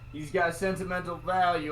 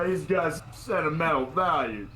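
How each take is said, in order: First: It is said in his normal voice. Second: It is said in a put-on cowboy accent.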